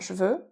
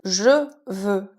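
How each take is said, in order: First: The e of je is dropped. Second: The e of je is pronounced.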